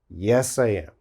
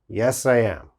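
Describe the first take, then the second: First: I am is said in full, two words. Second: I am is said in full, two words.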